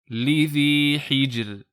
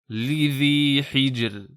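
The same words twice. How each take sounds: Both takes have the same delivery.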